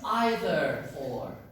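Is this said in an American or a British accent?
British. It is said in a British accent. "In British English"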